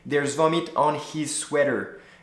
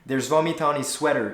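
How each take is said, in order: First: Each word is said strongly and separately. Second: The words are linked and flow smoothly. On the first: The speaker calls it wrong. "you see how unnatural it sounds if I say" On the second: The speaker calls it right. "it sounds way better. It flows better"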